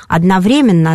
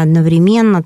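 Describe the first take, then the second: First: "Одновременно" said as odnoVREmenno; stress on ВРЕ. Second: "одновременно" said as odnovreMENno; stress on МЕН. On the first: Expert showing one accepted variant, "Одновременно" stressed on вре. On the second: Expert showing the other accepted variant, "одновременно" stressed on мен. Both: Shown as a demonstration. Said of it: "дают оба варианта".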